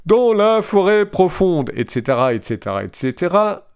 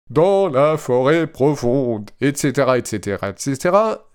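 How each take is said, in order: First: High robot voice, sing-song et ceteras. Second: Machine voice trailing into et cetera; robot voice. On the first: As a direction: machine voice trailing into et cetera. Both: Retold or imitated. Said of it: "avec ma belle voix de robot".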